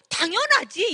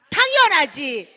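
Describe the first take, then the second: First: High, loud "당연하지" with a falling end; "당연하지" loud and high with a long falling ending; emphatic of course. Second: Chanted, very loud, slow "당연하지" with a long falling ending; chanted, lead the room in shouting "당연하지"; a leader shouting "당연하지" for the audience to chant together; crowd chant of course. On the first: Retold or imitated. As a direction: throw out "당연하지" as an obvious yes. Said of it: "제가 안 된다고 했을까요?". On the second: Shown as a demonstration. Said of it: "시작!".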